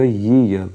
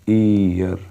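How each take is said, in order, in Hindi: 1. यह शब्द व्यंजन 'y' ध्वनि से शुरू होता है। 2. यह शब्द सामान्य स्वर ध्वनि से शुरू होता है। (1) "अब ये य आ गया और यह एक कॉन्सोनेंट है" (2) "और ये गलत है क्योंकि ये वॉवल है"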